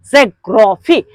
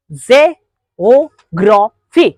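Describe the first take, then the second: First: Said in the usual way. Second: ज़ेओग्राफी drawn out slowly, syllable by syllable; slow syllable demo. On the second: Shown as a demonstration. Teacher showing syllables, slow spelled-out word. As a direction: stretch ज़ेओग्राफी into its parts. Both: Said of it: "उसके बाद".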